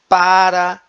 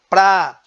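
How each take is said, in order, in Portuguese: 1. Dita por inteiro, com duas sílabas. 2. Encurtada, com uma sílaba. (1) "Na variedade padrão, há uma maior preocupação com a pronúncia" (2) "Na variedade não padrão, a pronúncia ela é simplificada"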